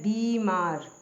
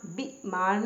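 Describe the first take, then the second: First: बीमार with long ee, bee-maar; correct pronunciation. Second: बीमार with short i, bi-maar; wrong pronunciation. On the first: Teacher correcting learners, बीमार begun with long bee. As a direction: stretch the first vowel of बीमार. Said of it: "बड़ी की मात्रा आएगी". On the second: Teacher showing a misspelling, बीमार begun with short bi. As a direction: cut the first vowel of बीमार short. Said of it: "बीमार नहीं होता". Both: Shown as a demonstration.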